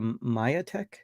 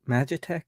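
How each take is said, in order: First: The middle consonant is a Y sound. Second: The middle consonant is a J sound. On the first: The speaker calls it right. "The J is is Y" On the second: The speaker calls it wrong. "you don't pronounce it that way"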